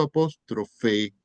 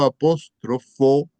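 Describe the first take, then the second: First: "apóstrofe" said deliberately, ending clearly in -fe; contrasted apóstrofe. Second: "apóstrofo" slow and loud, ending clearly in -fo; stress on apóstrofo. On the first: Teacher telling students what is not meant, deliberate "apóstrofe" ending in e. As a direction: mark the final e of "apóstrofe". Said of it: "no estoy diciendo apóstrofe". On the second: Teacher repeating for a late student, slow, emphatic "apóstrofo" ending in o. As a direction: pick out the final o of "apóstrofo". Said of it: "Observen que digo apóstrofo". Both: Shown as a demonstration.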